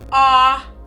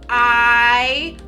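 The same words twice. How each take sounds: First: The vowel is said with its short sound. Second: The vowel is said like its letter name. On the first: "the short vowels say the other sounds" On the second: "long vowels say their own names"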